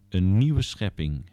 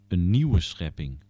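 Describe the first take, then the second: The two takes are said the same way.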